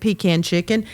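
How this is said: It is said in a Southern pronunciation.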